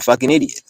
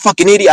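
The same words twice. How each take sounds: First: It is said flatly and casually, like a name. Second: It is said with insulting, angry force. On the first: It is used like someone's name, not an insult. "I just say it like that's his name" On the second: It is meant as an angry insult. "I don't say it like people like this fucking idiot"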